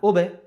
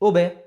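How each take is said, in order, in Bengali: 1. শেষের b প্রতিধ্বনিসহ ঝাঁকুনি দিয়ে ছাড়া হয়। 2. শেষের b প্রতিধ্বনিসহ ঝাঁকুনি দিয়ে ছাড়া হয়।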